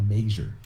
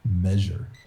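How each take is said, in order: First: The word has an Appalachian-style middle vowel. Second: The word has a standard middle vowel.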